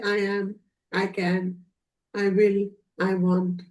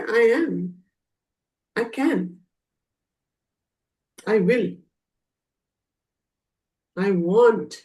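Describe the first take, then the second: First: It is said flatly, without emotion. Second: It is said with passion and drive. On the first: The words are just recited. The speaker calls it wrong. "Is there any passion? ... No" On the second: The words are truly believed. The speaker calls it right. "see, your tone has changed"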